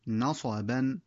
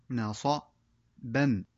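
First: Said in the usual way. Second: "نصبا" stretched out slowly, every sound held; very slow, drawn-out reading. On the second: Shown as a demonstration. Teacher slowly modelling the full word for pupils. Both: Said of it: "تكون قراءة الكلمات هكذا".

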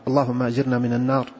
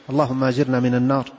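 Both takes have the same delivery.

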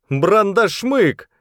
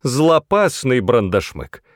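First: High, drawn-out cry of alarm; a stretched, high-pitched shout. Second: Slow, higher-pitched correction; correcting. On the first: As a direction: call out the monster's name high and slow. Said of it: "крикнул кто-то". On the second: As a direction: put the other one right, stressing «Злопасный». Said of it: "поправил Шалтай". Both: A narrator's reading.

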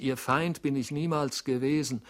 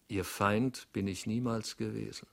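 First: Loud, high, desperate plea; pleading. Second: Calm, even, steady voice; cool and dignified. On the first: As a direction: beg him to believe you. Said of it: "rief er kläglich". (flehend, laut und hoch) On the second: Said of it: "kaltblütig und mit Würde". (kühl und würdevoll) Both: A narrator's reading.

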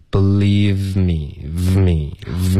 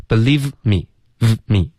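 First: "believe me" slow and joined, V running into me; no gap between believe and me; linked pronunciation. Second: "believe me" broken by a pause after the V; slow believe, gap, me; choppy, wrong linking. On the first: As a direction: draw out believe me on one continuous airflow. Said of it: "这样连发". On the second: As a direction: stop after believe, then a separate me. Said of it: "中间不要顿，不是". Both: Shown as a demonstration.

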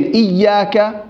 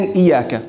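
First: "إياك" with a held double y; doubled "iyy" in "إياك"; with shadda. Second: "إياك" with a single short y; undoubled "iyaka" for "إياك"; without shadda. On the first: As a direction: lean on the y of "إياك", iyyaaka. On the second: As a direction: pass lightly over the y of "إياك", iyaka. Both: Shown as a demonstration. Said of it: "الاختلاف بينهم الشدة".

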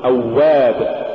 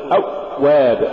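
First: أواب with a smooth doubled w; aw-wab, unbroken glide in أواب; soft flowing waw. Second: أواب broken after the first syllable; aw, gap, wab in أواب; choked-off waw. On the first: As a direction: let the w run in أواب. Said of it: "قل". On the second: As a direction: cut the doubled w dead in أواب. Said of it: "ولا تقل". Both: Shown as a demonstration.

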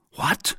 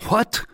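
First: Mildly astonished, short question; understated surprise on one word; astonishment. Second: High, startled exclamation; great astonishment. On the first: D'Artagnan learns who the first witness is, mildly astonished. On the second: D'Artagnan sees the second witness arrive, greatly astonished. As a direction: pitch leaps up in sharp astonishment. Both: A narrator's reading. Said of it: "in an accent of greater astonishment than before".

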